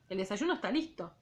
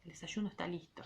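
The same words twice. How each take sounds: First: Said in the usual way. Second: El desayuno está listo said much softer and low; rereading the line as the lowest voice ever heard. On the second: Shown as a demonstration. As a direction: drop to the quietest voice you have. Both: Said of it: "Ay, lo leí re feo eso".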